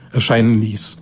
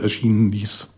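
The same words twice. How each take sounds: First: Erscheinen now read correctly, fixing the slip; corrected word. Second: Erschienen said instead of erscheinen, a slip; misread word. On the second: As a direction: read it wrongly as erschienen. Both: Real, not acted.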